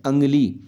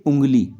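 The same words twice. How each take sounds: First: अंगली starting on "ang", not "ung"; misread form. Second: उंगली starting on a nasal "oo"; correct reading demo. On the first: Teacher reading out the dotted spelling, अंगली as ang-li. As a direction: open the first vowel of अंगली to a. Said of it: "अंगली पढ़ेंगे". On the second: Teacher showing correct reading, उंगली with nasal oo. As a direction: say उंगली as ung-li. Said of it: "pronunciation जब हमारा सही होगा". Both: Shown as a demonstration.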